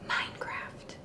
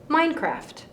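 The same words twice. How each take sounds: First: It is said very softly. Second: It is said at medium loudness.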